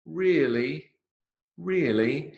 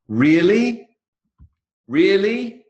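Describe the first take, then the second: First: High but held-back questioning rise; doubtful. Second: High, loud, thrilled rise; delighted. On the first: Teacher demonstrating unsure response to friend's baby news, doubtful. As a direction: query it as if not sure. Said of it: "in the first one, which is, "Are you sure?". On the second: Teacher demonstrating happy response to friend's baby news, delighted. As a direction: react to lovely news, pitched right up. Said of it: "second one, it's, "Oh, how lovely". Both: Shown as a demonstration.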